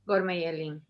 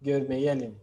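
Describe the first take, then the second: First: "Gorme yelin" with stress not yet on the final "lin" of "yelin"; misplaced stress. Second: "Gorme yelin" with the final "lin" of "yelin" clearly stressed; stress on last syllable. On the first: Real, not acted. Student tries Turkish phrase, stress not on final "lin". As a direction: learner says "Gorme yelin" without landing on the "lin" of "yelin". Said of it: "no lo pronuncias". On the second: Shown as a demonstration. Teacher models Turkish phrase for student, stress on final "lin". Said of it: "la acentuación en im".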